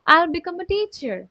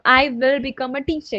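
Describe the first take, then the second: First: I will is shortened into one syllable. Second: I will is said as two full words. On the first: "हम short में भी तो बोल सकते हैं ना, तो मैं डायरेक्टली बोलती हूँ" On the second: "मैं ऐसे नहीं बोल रही हूँ"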